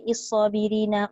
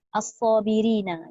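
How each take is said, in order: First: The word begins with an i vowel. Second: The word begins with an a vowel. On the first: The speaker calls it wrong. "Jangan pula kita baca" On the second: The speaker calls it right. "itu dibaca dengan baris atas"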